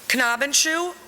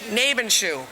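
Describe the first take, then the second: First: The name begins with an audible K sound. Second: The name begins with an N sound, no K. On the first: "Sometimes you pronounce the K" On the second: "sometimes you don't"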